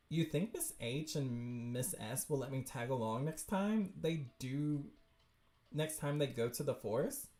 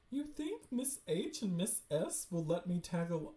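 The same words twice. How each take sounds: First: Lower, plainer character read; corrected character voice. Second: Mistaken character voice. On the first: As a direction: ask in the lower, more level voice. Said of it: "that's her". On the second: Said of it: "oh, wait, that's her". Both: Acted.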